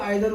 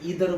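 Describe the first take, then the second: First: The first vowel sounds like 'eye'. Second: The first vowel sounds like 'ee'. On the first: "कुछ लोग आइदर बोलते हैं" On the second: "कुछ लोग ईदर बोलते हैं"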